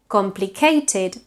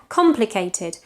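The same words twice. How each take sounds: First: "complicated" as "compli-CAY-ted"; learner's late-stressed "complicated"; misplaced stress. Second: "Complicated" as "COM-plicated"; English front-stressed "Complicated"; stress at beginning. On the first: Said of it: "tends to be pronounced in English". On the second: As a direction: lean on the first syllable of "Complicated". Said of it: "with a stress at the beginning". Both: Shown as a demonstration.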